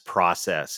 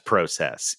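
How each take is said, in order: First: It is pronounced the non-Canadian way. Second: It is pronounced the Canadian way.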